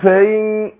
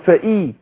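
First: The glottal stop is eased or dropped. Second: The glottal stop is clearly pronounced. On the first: The speaker calls it wrong. "بيسهلها او بيسقطها" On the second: The speaker calls it right. "طبعا انا بحقق الهمزه القطع هنا"

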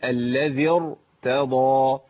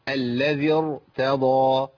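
The two takes are said the same way.

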